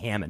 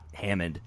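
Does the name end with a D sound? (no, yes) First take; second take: no; yes. First: The name ends in an N sound. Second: The name ends in a D sound. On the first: The speaker calls it right. "it's Becky Hammond" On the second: The speaker calls it wrong. "not Hammond"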